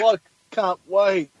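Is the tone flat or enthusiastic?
flat. It is said flatly, without enthusiasm.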